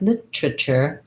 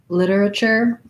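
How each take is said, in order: First: The T is clear, one syllable dropped. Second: The T is a soft flap, four syllables. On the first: "British literature, they'll use the clear T and they'll get rid of one of the, this er syllable" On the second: "Americans will make this one into a flap T"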